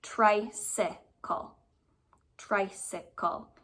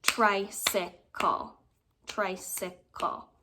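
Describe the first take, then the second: First: Drawn out slowly, syllable by syllable; careful slow sounding-out; slow syllable count. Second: Tricycle said very slowly, each beat clapped; slow clapped syllables; clapping syllables. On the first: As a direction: stretch tricycle out slowly to hear its beats. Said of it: "But I look at this". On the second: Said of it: "Let's clap it out". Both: Shown as a demonstration.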